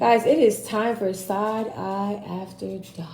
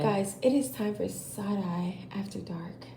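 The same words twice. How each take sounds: First: It is said in an ordinary speaking voice. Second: It is said in a put-on sexy voice.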